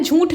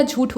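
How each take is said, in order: First: झूठ with a nasalised long oo; nasal sound inside झूठ; wrong nasal vowel. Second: झूठ with a plain long oo; no n sound inside झूठ; clean oral vowel. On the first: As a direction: say झूठ as jhoonth. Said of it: "झूठ नहीं होता". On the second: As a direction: say झूठ as jhooth, without nasal. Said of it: "झूठ होता है". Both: Shown as a demonstration.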